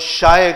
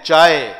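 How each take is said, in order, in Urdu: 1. لفظ sh کی آواز سے شروع ہوتا ہے۔ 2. لفظ ch کی آواز سے شروع ہوتا ہے۔ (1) "وہ شائے کہتے ہیں" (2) "ہم چے بولتے ہیں چائے"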